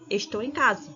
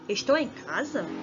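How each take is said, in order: First: It sounds like a plain, finished statement. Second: It sounds like a questioning inquiry.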